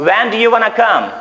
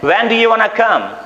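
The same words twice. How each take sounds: First: Want to is run together into wanna. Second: The same.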